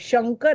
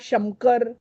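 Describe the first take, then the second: First: The nasal is pronounced as an ng sound. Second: The nasal is pronounced as an m sound. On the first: The speaker calls it right. "शंकर आहे" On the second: The speaker calls it wrong. "हे उच्चारण अशुद्ध आहे"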